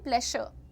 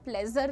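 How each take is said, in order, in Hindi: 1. बीच का व्यंजन 'sh' ध्वनि है। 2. बीच का व्यंजन कठोर 'j' ध्वनि है। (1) "श पे रुकती थी मैं" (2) "प्लेजर नहीं होता"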